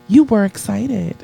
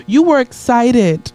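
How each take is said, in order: First: Said in the usual way. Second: Slow, stretched out and louder; ironic softer take, actually louder. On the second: Shown as a demonstration. Preacher teasing the crowd, slow and loud. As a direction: lean on were, drawn out. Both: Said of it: "say it a little softer".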